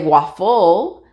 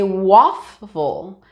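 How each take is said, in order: First: The stress is on the second syllable. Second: The stress is on the first syllable. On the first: The speaker calls it wrong. "We don't say waffle, uh, and make this one the stress one" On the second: The speaker calls it right. "We say waffle"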